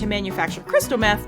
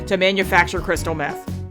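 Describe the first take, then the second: First: It is said in a bright, perky tone. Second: It is said in a flatter, subdued tone. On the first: The speaker calls it wrong. "maybe a little bit too uh, perky" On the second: The speaker calls it right. "Not that not that perky"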